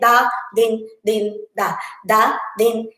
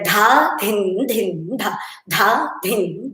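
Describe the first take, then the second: First: The consonants are said without any breathy h. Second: The consonants are said with a breathy h. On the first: The speaker calls it wrong. "You cannot say ... No, because it has H" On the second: The speaker calls it right. "That itself has to be with a clear pronunciation"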